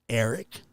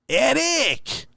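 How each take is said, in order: First: The name is said in a calm, normal voice. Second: The name is yelled loudly and forcefully.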